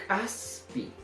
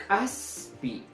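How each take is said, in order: The two takes are said the same way.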